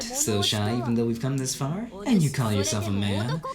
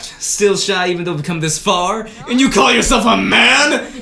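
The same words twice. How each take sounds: First: It is said in a softer, less commanding voice. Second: It is said in a loud, booming, commanding voice.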